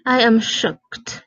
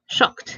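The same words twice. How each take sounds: First: Said in the usual way. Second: Breathless whisper of shocked. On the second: Shown as a demonstration.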